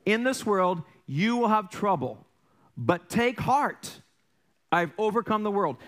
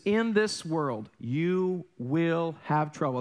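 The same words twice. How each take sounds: First: Higher, slower, take heart stretched out; preaching the verse slowly; slow emphatic scripture. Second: In this world, you will have trouble drawn out very slowly; slow reverent quote; slow solemn scripture. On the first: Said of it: "That's found in John sixteen thirty-three". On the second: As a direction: read the verse slowly and weightily. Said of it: "He says". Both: Shown as a demonstration.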